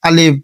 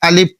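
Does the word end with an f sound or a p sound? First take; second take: p sound; p sound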